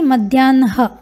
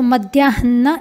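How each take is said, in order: First: The h sound comes after the n sound. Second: The h sound comes before the n sound. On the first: The speaker calls it wrong. "न कि मध्याह्न" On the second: The speaker calls it right. "नकार से पहले ह है तो मध्याह्न ऐसा उच्चारण करना है"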